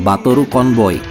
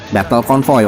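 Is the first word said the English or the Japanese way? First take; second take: Japanese; English. First: The first word has the Japanese sound, three syllables. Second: The first word has the English sound, two syllables. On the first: "waktu itu Batoru Convoy" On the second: "nama Diaklonnya waktu itu lini Diaklonnya adalah Battle Convoy"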